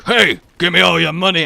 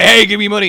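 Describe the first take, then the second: First: Loud mugger demand; hammed-up stick-up line; mock mugger. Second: Higher, much louder mugger yell; hammed-up mugger shouting the demand; over-the-top robbery bellow; mock mugger, shouted. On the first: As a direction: bark it like a cartoon mugger. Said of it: "but going". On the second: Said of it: "But either way".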